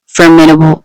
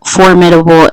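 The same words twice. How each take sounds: First: "formidable" said as for-mi-able, d swallowed; mispronounced formidable. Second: "formidable" said carefully as for-mid-a-ble; corrected formidable. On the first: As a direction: slur "formidable" dropping the d sound. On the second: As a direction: pronounce every syllable of "formidable", d included. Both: Real, not acted.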